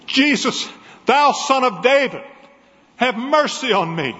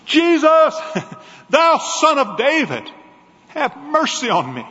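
First: High pleading cry for mercy. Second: High, loud desperate shout; crying out again. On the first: Blind beggar crying out to Jesus by the road, high and pleading. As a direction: cry out to be heard over a crowd. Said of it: "crying out at the top of his voice". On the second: Blind beggar shouting louder over the crowd to Jesus, desperate. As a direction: shout it louder, as if your last chance. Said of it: "And he cried again". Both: Acted.

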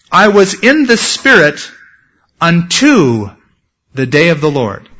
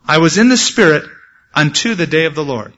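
First: "unto" set apart by pauses and punched; deliberate phrase by phrase, leaning hard on "unto"; stress on UNTO. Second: Said in the usual way. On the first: Shown as a demonstration. Stresses the variant Greek rendering.

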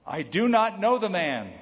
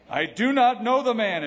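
First: Raised, louder denial under oath; emphatic oath. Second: Loud, high-pitched vehement denial; cursing, swearing denial. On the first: Peter denying Jesus to a servant girl, emphatic. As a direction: deny it firmly, pitching it up. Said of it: "again he denied with an oath". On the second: Peter's third denial to the bystanders, loud and vehement. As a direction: swear it forcefully, voice jumping up. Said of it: "he began to curse and swear". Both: Acted.

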